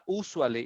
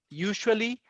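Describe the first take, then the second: First: The first syllable lacks a 'you' sound. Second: The first syllable has a 'you' sound. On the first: The speaker calls it wrong. "It's not usually" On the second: The speaker calls it right. "it's you"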